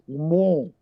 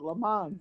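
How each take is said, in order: First: It is said the French-sounding way. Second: It is said the American way.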